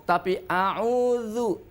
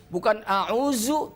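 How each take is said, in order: First: "auzu" drawn out with dh; correct auzu. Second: "auzu" with a plain z; "auzu" with a hard z, the wrong way. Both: Shown as a demonstration. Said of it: "jauh sekali makhrajnya".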